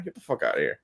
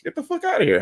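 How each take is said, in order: First: A deep, quiet, fed-up brush-off; low muttered dismissal. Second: A squeaky, disbelieving brush-off; high exasperated dismissal. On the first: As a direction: drop low and soft, almost under the breath. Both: Real, not acted. Ranting against crowdfunding.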